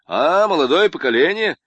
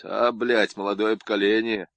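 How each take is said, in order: First: Louder, higher booming «А, молодое поколение!»; jovial booming welcome; loud hearty greeting. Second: Sullen. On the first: Acted. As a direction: greet them cheerfully and loud. Corrected hearty take. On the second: A narrator's reading. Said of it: "хмуро произнёс".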